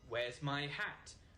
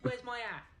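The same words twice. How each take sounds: First: The H at the start of hat is pronounced. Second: The H at the start of hat is dropped. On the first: "forget about H. H doesn't exist in London" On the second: "Would become"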